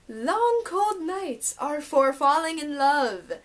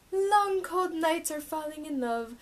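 First: Slow, careful "are for falling in love"; slow deliberate title reading; careful correct reading. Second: Wrong reading "falling in love" missing for; misread title. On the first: Shown as a demonstration. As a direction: read it out properly this time. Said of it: "Now I apparently learned how to read". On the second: Real, not acted. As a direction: read aloud, slightly wrong. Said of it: "I still said it wrong".

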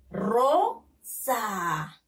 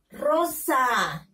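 First: Rosa split as RO, pause, long falling SA; teacher's two-beat sounding-out of Rosa; syllable by syllable. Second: Rosa read as one connected word; teacher reading Rosa whole for pupils; syllables joined. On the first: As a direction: sound out "Rosa" with a clear gap. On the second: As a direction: blend "Rosa" with no gap, falling at the end. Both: Shown as a demonstration. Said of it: "Lean, niños".

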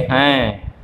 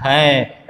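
First: हैं with the vowel sent partly through the nose; nasal anusvara. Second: Said in the usual way. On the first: Shown as a demonstration. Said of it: "थोड़ा सा नाक में भी वो ध्वनि आती है". (हैं को थोड़ा नाक से बोलें) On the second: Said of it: "अनुस्वार भी है".

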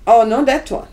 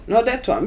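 First: Loud, insistent, correcting the buyer; loud exclamation. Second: Said in the usual way. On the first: Retold or imitated. Dealer calling out to the buyer, loud and insistent. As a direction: call it out sharply, half-shouting no.

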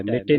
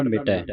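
First: ਮਿਟੇ ending in narrow "e"; ਮਿਟੇ with a single-lavan ending; wrong reading. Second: ਮਿਟੈ ending in open "ai"; correct reading. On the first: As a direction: say ਮਿਟੇ quickly as "mite". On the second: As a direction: end ਮਿਟੈ on a falling "ai". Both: Shown as a demonstration. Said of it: "ਨਹੀਂ ਪੜ੍ਹਨਾ".

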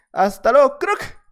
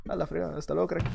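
First: Louder goodbye, crack sung up high; mocking farewell. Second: Soft, under-the-breath goodbye; quiet farewell. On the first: Gamer taunting the player he just beat, mocking high crack. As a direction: throw the goodbye at him, crack squeaked high. Farewell to killed opponent, repeated. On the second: Gamer quietly sending off a beaten player, soft mutter. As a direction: mumble the goodbye to yourself. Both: Real, not acted.

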